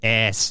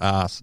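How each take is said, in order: First: It is said with an American pronunciation. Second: It is said with a British pronunciation. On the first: The speaker is from America. "we know it's America because she said ass" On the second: The speaker is from Britain. "not ass"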